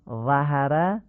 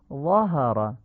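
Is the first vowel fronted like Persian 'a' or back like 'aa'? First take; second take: front; back. First: The first vowel is fronted, like Persian short a. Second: The first vowel is open and back, like short aa. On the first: The speaker calls it wrong. "این فتحه فصیح نیست" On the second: The speaker calls it right. "فتحه ظا رو باید آی کوتاه بگیم"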